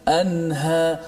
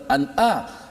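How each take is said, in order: First: The middle consonant is a breathy h sound. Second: The middle consonant is a glottal catch. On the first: The speaker calls it right. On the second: The speaker calls it wrong. "bukan an'a"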